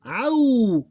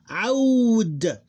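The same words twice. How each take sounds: First: Audu high and loud, long "au", pause, short "du"; two separate syllables. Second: Aud high and loud, long glide closed on D; combined closed syllable. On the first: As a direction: split Audu after the held diphthong. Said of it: "Two different syllables". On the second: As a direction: run Aud together as one long syllable. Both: Shown as a demonstration.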